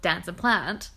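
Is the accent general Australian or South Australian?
general Australian. It is said with a general Australian accent.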